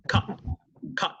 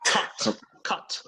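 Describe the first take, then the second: First: "Cut" with the final T cut off; "Cut" stopped dead before the T sounds; American cut-off T. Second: "Cut" with a sharply released final T; "Cut" ending on an audible T; British final T. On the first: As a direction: say "Cut" American style, T unreleased. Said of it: "la T se corta al final". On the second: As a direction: say "Cut" British style, letting the T sound. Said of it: "cortar in British English". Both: Shown as a demonstration.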